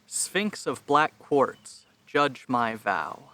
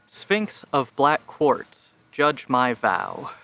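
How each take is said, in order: First: The voice is recorded at the lowest input level. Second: The voice is recorded at a higher input level. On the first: "lowest levels" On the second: "this is audio at fifty percent"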